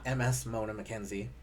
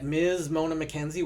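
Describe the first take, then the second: First: The title is spelled out as two letters. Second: The title is said as one word, miz. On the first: The speaker calls it wrong. "not M S Mona McKenzie" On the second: The speaker calls it right. "which was pronounced correctly this episode"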